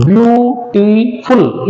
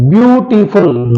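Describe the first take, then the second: First: "beautiful" slow, syllable by syllable; split into syllables. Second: Said in the usual way. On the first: Shown as a demonstration. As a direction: draw out "beautiful" beat by beat. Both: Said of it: "it has three syllables".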